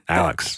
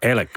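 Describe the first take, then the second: First: The name ends with a ks sound. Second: The name ends with a plain k sound.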